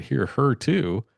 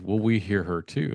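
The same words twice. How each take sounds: First: "Hear her too?" drawn out slowly at a higher pitch; retold disbelief, stretching "Hear her too?"; slow, higher echo of "Hear her too?" in astonishment; incredulous echo. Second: Said in the usual way. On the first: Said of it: "And I said". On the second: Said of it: "they looked at each other and said".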